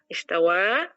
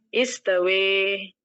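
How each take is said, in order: First: The final vowel is a plain open 'a'. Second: The final vowel leans toward an 'e' sound.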